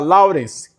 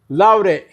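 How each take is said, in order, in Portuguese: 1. A palavra é dita por inteiro, com as consoantes finais. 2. A palavra é cortada, sem as consoantes finais. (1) "vamos falar Lawrence" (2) "eu falaria Laure"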